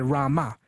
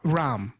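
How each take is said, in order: First: It is said with a final vowel. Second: It is said without a final vowel.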